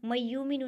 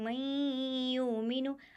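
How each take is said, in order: First: The doubled y is said without nasal sound. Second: The doubled y is said with nasal sound. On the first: The speaker calls it wrong. "नहीं" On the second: The speaker calls it right. "बल्कि मय्युमिनु, आवाज़ को नाक में घुमाएंगे"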